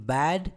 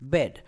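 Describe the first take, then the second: First: ବ୍ୟାଡ୍ with an open "a" as in "cat"; open-vowelled "baad"; long vowel. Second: ବେଡ୍ with a short "e" as in "red"; short, closed "bed"; short vowel. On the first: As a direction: model "bad" after spelling it. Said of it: "ଲମ୍ବା ଉଚ୍ଚାରଣ କରିଥାଉ". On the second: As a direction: model "bed" after spelling it. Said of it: "and B E D". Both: Shown as a demonstration.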